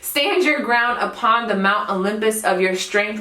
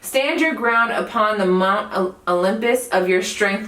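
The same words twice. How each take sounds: First: It is said firmly, with conviction. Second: It is said hesitantly, with stumbles. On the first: The speaker calls it right. "with some conviction" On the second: The speaker calls it wrong. "because I was stuttering"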